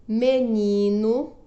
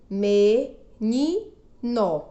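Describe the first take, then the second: First: Said in the usual way. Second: "menino" slowly as me, ni, no; syllable by syllable. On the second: Shown as a demonstration. Teacher showing three syllables, "menino" split me, ni, no. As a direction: pause after each syllable of "menino". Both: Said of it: "Três sílabas".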